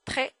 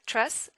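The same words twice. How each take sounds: First: "très" as a short treh; "très" with French R and no S; silent S. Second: "très" as tress, with a hissed S; "très" ending on an audible S; wrong, final S sounded. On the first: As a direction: say "très" ending on the open vowel. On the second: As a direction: say "très" with its last letter pronounced. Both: Shown as a demonstration. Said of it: "Not très".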